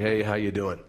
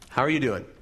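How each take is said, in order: First: It sounds like a casual, automatic greeting. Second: It sounds like a sincere, caring question.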